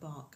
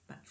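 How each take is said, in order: First: The name ends with a 'k' sound. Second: The name ends with a 'ch' sound. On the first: The speaker calls it wrong. "is not Bark" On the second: The speaker calls it right. "it's pronounced Batch"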